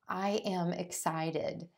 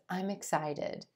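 First: I am is said as two full words. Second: I am is shortened into one syllable. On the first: The speaker calls it wrong. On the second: The speaker calls it right.

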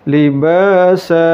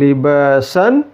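First: The word ends with a long vowel. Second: The word ends with an n sound. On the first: The speaker calls it right. "tapi libasa" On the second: The speaker calls it wrong. "Bukan libasan"

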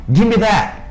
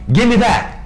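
The two takes are said the same way.

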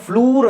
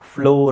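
First: The vowel is a long 'oo' sound. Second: The vowel is an 'oh' sound. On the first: The speaker calls it wrong. "ಇದನ್ನು ಫ್ಲೂರ್ ಅಂತ ಓದ್ತೀರಾ? ಇಲ್ಲ" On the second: The speaker calls it right. "ಫ್ಲೋರ್ ಅಂತ ಓದಬೇಕು"

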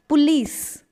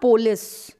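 First: The stress falls on the second syllable. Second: The stress falls on the first syllable. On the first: The speaker calls it right. "So the stress is on lease" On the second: The speaker calls it wrong. "It's not police"

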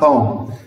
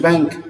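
First: The final consonant is silent. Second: A final k sound is pronounced. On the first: The speaker calls it right. "حرف السي ما انطقهوش خالص" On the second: The speaker calls it wrong. "ما تقولوش بنك"

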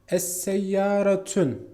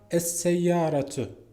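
First: The word ends with an n sound. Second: The word ends in a vowel, no n. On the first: The speaker calls it wrong. "Yanlış" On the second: The speaker calls it right. "şeklinde gelmeli"

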